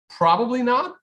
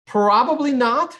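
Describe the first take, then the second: First: Said in the usual way. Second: "Probably" punched loud and high, "not" light; stress on probably. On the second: Shown as a demonstration. Answering a chat question about a Tone NFT, stress on "Probably". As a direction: lean hard on the word "Probably". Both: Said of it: "Emphasis on probably".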